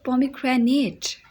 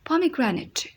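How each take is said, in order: First: The last syllable sounds like 'ate'. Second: The last syllable sounds like 'it'. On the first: The speaker calls it wrong. "लोग इसको गलत बोलते हैं" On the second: The speaker calls it right. "इट की आवाज़ आएगी"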